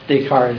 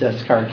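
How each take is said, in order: First: It is said differently from its spelling. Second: It is said the way it is spelled. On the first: The speaker calls it right. "it's Descartes" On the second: The speaker calls it wrong. "instead of Descartes"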